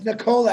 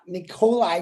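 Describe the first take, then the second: First: The name ends with a 'la' sound. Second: The name ends with a 'lie' sound. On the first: "if you pronounce it correctly" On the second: "however Marty wants to say it"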